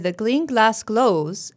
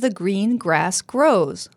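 First: The clusters use an L sound, not an R. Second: The clusters use a curled-back R sound. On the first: "it's easier to pronounce it as a gl sound with the tip of the tongue right behind the front teeth" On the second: "with the tongue curled back, not touching your teeth at all"

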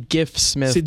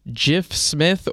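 First: The name begins with a hard G sound. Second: The name begins with a soft J sound. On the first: "or it could be Gif Smith, depending on how you pronounce it" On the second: "Apparently the interim head coach is Jif Smith"

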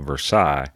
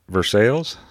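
First: The name is given its French pronunciation. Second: The name is given its local Kentucky pronunciation. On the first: It names the city in France. "the city over there in France they call Versailles" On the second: It names the town in Kentucky. "around here, they say Versailles"

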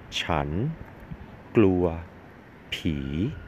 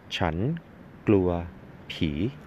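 First: The phrase is said more slowly. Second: The phrase is said at normal speed.

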